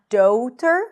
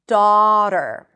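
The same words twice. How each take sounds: First: The first vowel glides from one sound to another. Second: The first vowel stays one steady sound. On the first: The speaker calls it wrong. "Not daughter" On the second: The speaker calls it right. "There isn't a shift here"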